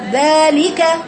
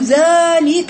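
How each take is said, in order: First: The first sound is moderately thin and balanced. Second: The first sound is heavy and darkened. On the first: The speaker calls it right. "هتجيبيها معتدلة" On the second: The speaker calls it wrong. "تحول من الترقيق إلى التفخيم"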